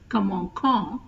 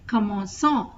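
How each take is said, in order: First: The c is pronounced as a k sound. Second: The c is pronounced as an s sound. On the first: The speaker calls it wrong. "instead of commençant" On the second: The speaker calls it right. "to pronounce as commençant"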